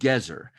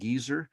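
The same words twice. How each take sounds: First: The name is said with a Hebrew pronunciation. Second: The name is said with an English pronunciation. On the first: It is the Hebrew word for carrot. The speaker calls it right. "pronounce it the biblical way, the Hebrew way" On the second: It sounds like an impolite word for an older person. The speaker calls it wrong. "we usually call it Gezer"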